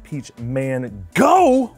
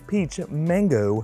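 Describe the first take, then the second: First: Mango is split into two separate parts. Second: Mango is said smoothly as one word. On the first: "you really should pronounce it peach man-go" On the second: "this one is peach mango"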